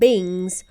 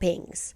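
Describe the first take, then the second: First: The word starts with a b sound. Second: The word starts with a p sound. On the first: This is how one particular person says it. The speaker calls it wrong. "if you're John Pryor, you call them bings" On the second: This is the usual way to say it. The speaker calls it right. "not pings"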